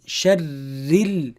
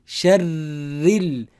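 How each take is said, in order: Both takes have the same delivery.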